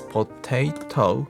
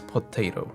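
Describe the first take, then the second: First: Said slowly with a clear second T sound. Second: Said at natural speed with an R-like second T. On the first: "When you read slowly, it's potato" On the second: "with natural speed, it sounds potato. The second T sounds like R"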